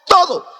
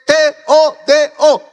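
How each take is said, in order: First: "todo" as one quick, high-pitched punch; emphatic whole word. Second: "T O D O" letter by letter, higher and slow; spelled out emphatically. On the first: Whole word after spelling it. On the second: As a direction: punch each letter of "T O D O" separately. Preacher spells word for emphasis. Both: Shown as a demonstration.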